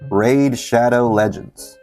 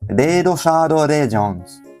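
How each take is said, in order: First: It is said in a plain English accent. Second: It is said in a Japanese accent.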